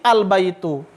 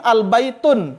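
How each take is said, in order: First: The word ends on a bare vowel. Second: The word ends with an N sound. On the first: The speaker calls it right. "Pasti al baitu" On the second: The speaker calls it wrong. "tidak mungkin al baitun"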